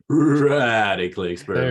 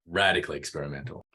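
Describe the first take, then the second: First: It is said with a stuttering nineties effect. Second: It is said plainly without any stutter.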